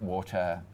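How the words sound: It is said in a non-British accent. "for me, I say water"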